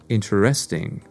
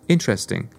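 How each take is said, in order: First: The stress is on a later syllable. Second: The stress is on the first syllable. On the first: The speaker calls it wrong. "not interesting" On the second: The speaker calls it right. "has the stressed part on the first syllable"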